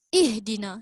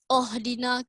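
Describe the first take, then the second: First: The word begins with an i vowel. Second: The word begins with an o vowel. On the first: The speaker calls it right. "Kita baca ihdina" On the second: The speaker calls it wrong. "Kita tak baca ohdina"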